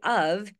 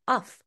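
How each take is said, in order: First: The word ends with a V sound. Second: The word ends with an F sound. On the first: The speaker calls it right. "pronounced with a V of" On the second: The speaker calls it wrong. "Most of my students will pronounce it uff"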